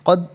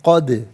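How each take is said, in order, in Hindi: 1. अंतिम द बिना किसी गूँज के सपाट रुक जाती है। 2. अंतिम द लौटती हुई गूँज के साथ ख़त्म होती है। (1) "नहीं" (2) "आवाज़ लौटती भी महसूस होनी चाहिए"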